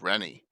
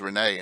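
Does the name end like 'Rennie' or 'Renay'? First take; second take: Rennie; Renay. First: The name ends in an 'ee' sound. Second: The name ends in an 'ay' sound. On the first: This is how people in the south of the state say it. "South Jersey says Rennie" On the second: This is how people in the north of the state say it. "North Jersey says Renee"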